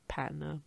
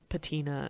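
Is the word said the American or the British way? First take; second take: British; American. First: It is said with the British pronunciation. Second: It is said with the American pronunciation. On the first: "the British pronunciation is" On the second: "the American version is"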